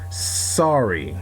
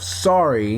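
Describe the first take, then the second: First: The s sound at the start is hissed long. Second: The s sound at the start is short. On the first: The character is angered. "place emphasis on S sounding words" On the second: The character is calm. "instead of sorry"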